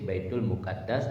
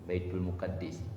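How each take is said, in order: First: The second word's final vowel sounds like a. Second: The second word's final vowel sounds like i. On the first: The speaker calls it right. "Yang betul baca baitul muqaddas" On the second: The speaker calls it wrong. "Kan salah"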